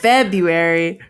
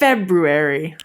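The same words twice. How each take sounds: First: The first R sound is left out. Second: The first R sound is clearly pronounced. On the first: This is how most people say it. The speaker calls it wrong. "everyone says February" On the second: Every letter of the word is said. The speaker calls it right. "I said it with all the all the letters in there"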